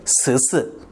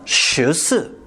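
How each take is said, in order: First: The 'sh' sound is a plain flat s. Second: The 'sh' sound is curled back, retroflex. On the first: The speaker is from Taiwan. "대만 사람은" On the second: The speaker is from Beijing. "북경어로 말하면"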